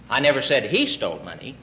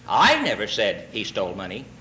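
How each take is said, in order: First: The stress falls on the word said. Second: The stress falls on the word I.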